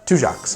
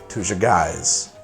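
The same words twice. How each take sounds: First: The name is said differently from its spelling. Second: The name is read the way it is spelled. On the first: The speaker calls it right. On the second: The speaker calls it wrong. "I definitely would have pronounced that Tujague's"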